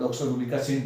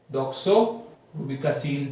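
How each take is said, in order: First: Said in the usual way. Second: Doxorubicin drawn out very slowly, part by part; slow sounding out. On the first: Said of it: "complete word के साथ में". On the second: Shown as a demonstration. Teacher showing students how to read the drug name. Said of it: "इसको आप doxorubicin पढ़िए".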